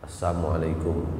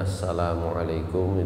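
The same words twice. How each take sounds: First: The greeting is said quickly and clipped. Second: The greeting is said at a normal, full pace. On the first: The meaning becomes the opposite of a prayer for safety. The speaker calls it wrong. "pengucapannya dipercepat" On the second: It is a prayer for safety and well-being. The speaker calls it right. "mestinya assalamualaikum itu bacanya"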